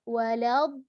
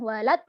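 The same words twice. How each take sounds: First: The consonant sound is drawn out long. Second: The consonant sound is cut short abruptly. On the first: The speaker calls it right. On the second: The speaker calls it wrong.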